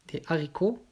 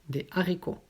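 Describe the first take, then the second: The two takes are said the same way.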